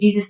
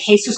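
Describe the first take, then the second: First: The name is said with an English pronunciation. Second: The name is said with a Spanish pronunciation. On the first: "we say Jesus in English" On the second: "in the Spaniard Latin language, they'll pronounce it Jesus"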